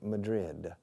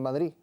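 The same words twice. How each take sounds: First: Madrid is said with English sounds. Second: Madrid is said with Spanish sounds. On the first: The speaker calls it right. "try to say it in an English way" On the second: The speaker calls it wrong. "fifty percent of the people don't understand Madrid"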